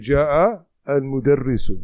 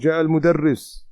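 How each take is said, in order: First: The last word ends with its final vowel. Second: The last word ends without its final vowel. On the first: This is how it is read for grammar practice. "in this book we'll say" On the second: This is how it is normally said in everyday speech. "generally we would just say"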